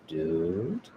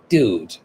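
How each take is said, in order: First: It sounds scared and unsure. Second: It sounds angry and sharp. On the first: The speaker does not know what is going on. "if you're a little bit scared or you're not sure what's going on" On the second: The speaker is annoyed with someone. "if you're angry"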